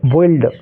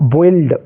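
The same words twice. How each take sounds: First: The u is sounded, giving an oi vowel. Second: The same.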